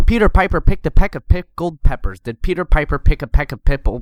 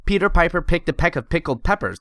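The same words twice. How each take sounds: First: Loud popped Ps, no pop filter; popping plosives. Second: Said in the usual way. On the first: Shown as a demonstration. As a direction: blast every P into the mic. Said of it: "Versus this". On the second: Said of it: "They make your audio sound like this".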